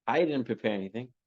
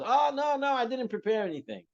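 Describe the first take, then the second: First: Said in the usual way. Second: High-pitched mock protest; flustered refusal. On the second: Uncle asked to speak begs off, high flustered protest. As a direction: beg off, voice jumping up in pitch.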